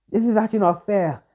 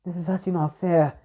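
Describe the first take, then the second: First: The second, more anguished take; rising distress. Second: A hurt, pleading complaint; upset protest. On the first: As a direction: pitch climbs higher, more upset. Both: Acted. Yariko upset at Naruto's pain.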